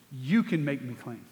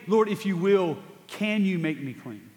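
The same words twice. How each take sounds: First: "You can make me clean." stated as fact, stress on "You", lower and softer, falling; firm statement. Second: "Lord, if you will, can you make me clean?" as a request, with stress on "can"; asking, a question. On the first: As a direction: say it as a confession of faith. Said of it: "That is a statement". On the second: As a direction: ask it as a hopeful question. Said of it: "That's not a question". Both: Shown as a demonstration.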